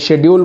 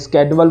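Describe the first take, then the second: First: The word begins with an 'sh' sound. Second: The word begins with an 'sk' sound. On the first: This is how it is said in some countries. "कहीं शेड्यूल बोलते हैं" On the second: This is how it is said in other countries. "कहीं स्केड्यूल बोलते हैं"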